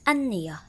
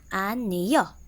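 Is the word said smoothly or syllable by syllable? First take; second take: smoothly; syllable by syllable. First: The word is said smoothly as one unit. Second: The word is split into separate syllables. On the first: "I repeat" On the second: "And in syllables"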